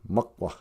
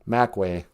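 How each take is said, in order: First: The vowels are short, like uh. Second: The vowels are said the English way. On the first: The speaker calls it right. "A's are uh" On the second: The speaker calls it wrong. "It's not a Makwa"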